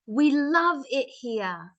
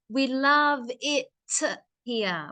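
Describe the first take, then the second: First: The phrase is said quickly with a faint t. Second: The phrase is said slowly with a clear t. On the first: "I say it fast, you don't hear it" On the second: "if I say it slow"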